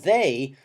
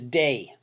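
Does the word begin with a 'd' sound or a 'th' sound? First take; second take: th; d. First: The word begins with a voiced th sound. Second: The word begins with a plain d sound. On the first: "we have a voiced sound" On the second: "that can be simplified to day"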